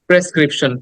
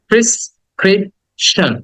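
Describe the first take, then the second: First: The first syllable sounds like 'pre'. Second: The first syllable sounds like 'pri'. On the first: The speaker calls it wrong. "আমরা এটাকে বলি প্রেসক্রিপশন" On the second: The speaker calls it right. "আসলে উচ্চারণটা হবে প্রিস প্রিস ক্রিপশন প্রিসক্রিপশন"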